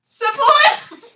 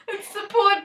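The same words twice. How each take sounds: First: Bright shouted answer, high and loud; loud call. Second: Said in the usual way. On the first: Shown as a demonstration. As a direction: call out the word support. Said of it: "what's the S word?".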